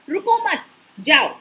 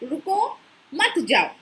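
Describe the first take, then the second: First: The pause comes right after 'mat'. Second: The pause comes right after 'ruko'.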